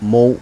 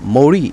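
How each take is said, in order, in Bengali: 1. শব্দটি শেষে কোনো r ধ্বনি ছাড়াই শেষ হয়। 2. শেষে একটি r ধ্বনি উচ্চারণ করা হয়। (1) "এক্ষেত্রে আমরা মৌ বলবো" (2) "এরকম কিছু বলা যাবে না"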